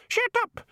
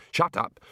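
First: Very high parrot squawk; mimicking bird. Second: Higher, irritated command; annoyed retort. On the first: Birds echo the annoyed man, high squawk. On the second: Man tells the screaming birds off, annoyed. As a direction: tell the noisy birds off. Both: A narrator's reading.

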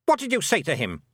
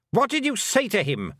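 First: Sharp, higher-pitched demand; snapped. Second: High, urgent, angry question; demanded. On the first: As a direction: snap the question as a suspicious queen. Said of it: "snapped the Queen". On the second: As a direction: demand it as an alarmed queen, pitched high. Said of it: "the Queen demanded". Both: A narrator's reading.

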